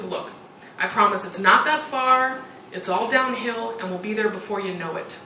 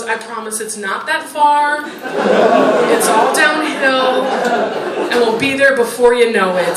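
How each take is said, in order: First: Soothing husband. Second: Put-on slow, gentle mother comforting her crying kid; soothing mother. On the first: Retold or imitated. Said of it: "and he goes". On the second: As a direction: coax the child along, slowly. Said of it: "his mom leans down next to him and goes".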